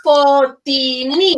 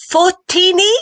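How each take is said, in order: First: Fortini said slowly and louder, rising at the end; slow correction. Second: Fortini said high with a rising question, FOR-tee-nee; a high uncertain try at Fortini; wrong try at the name. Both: Shown as a demonstration.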